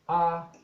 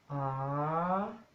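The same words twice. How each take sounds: First: It is said on a level mid tone. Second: It is said on a rising tone. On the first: "medio o neutro" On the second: "tono creciente"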